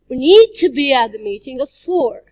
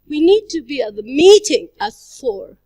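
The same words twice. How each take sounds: First: The word 'need' is stressed. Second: The word 'meeting' is stressed. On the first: "If we stress the word need" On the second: "if we stress the word meeting"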